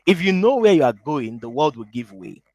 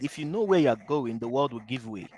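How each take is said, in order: First: Slow and deliberate, each word set apart; slow, over enunciating. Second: Quick, run together; fast. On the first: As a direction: spell the saying out carefully. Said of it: "Let me say it slowly". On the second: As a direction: rattle the saying off. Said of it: "I said that very fast". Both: Shown as a demonstration.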